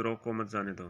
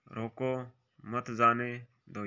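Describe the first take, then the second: First: "रोको, मत जाने दो" softly in one flow; no break before "दो", keep "मत जाने दो" together; phrasé corrigé. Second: Slow, broken-up "रोको, मत जाने दो"; pauses mal placées. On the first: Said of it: "विकल्प तीन का शुद्ध". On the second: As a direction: break after "रोको", draw out "जाने" before "दो". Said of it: "ये भी गलत है". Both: Shown as a demonstration.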